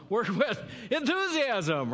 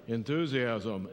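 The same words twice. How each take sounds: First: Higher and louder with a laugh, full of zest; enthusiastic. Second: Slow, lower and flat, the wrong way; dull, unenthusiastic. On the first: Pastor showing the congregation the right way, eager and bright. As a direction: sell it like you mean it, bursting with energy. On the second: Pastor showing the congregation the wrong way, dull and listless. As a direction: say it like you couldn't care less. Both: Shown as a demonstration. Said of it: "No, work with enthusiasm".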